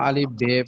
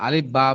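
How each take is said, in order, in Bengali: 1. দ্বিতীয় অক্ষরের নামটি 'e' স্বরে শেষ হয়। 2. দ্বিতীয় অক্ষরের নামটি খোলা 'a' স্বরে শেষ হয়। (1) "আর উর্দু যখন বলবো তখন আলিফ, বে, পে, তে, টে এভাবে বলতে হবে।" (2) "আলিফ বা বলতে হবে।"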